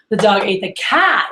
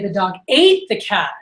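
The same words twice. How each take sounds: First: The word cat carries the emphasis. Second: The word ate carries the emphasis. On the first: It was the cat, not the mouse. "the cat, not the mouse" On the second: It was eaten, not killed or ruined. "he ate it, not, I don't know, killed it"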